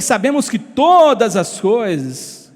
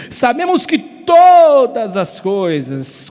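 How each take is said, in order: First: Said in the usual way. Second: "todas" stretched long and punched out; stress on TODAS. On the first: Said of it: "olha o que você tá dizendo". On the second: Shown as a demonstration. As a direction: hit TODAS hard, dragging the first vowel. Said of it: "o que eu estou lendo". (ênfase forte e alongada em "todas")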